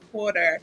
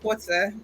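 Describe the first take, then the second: First: It is said in an American accent. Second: It is said in a British accent. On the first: This is how Americans say it. "they're going to say quarter" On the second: This is how the family said it. "we say quarter"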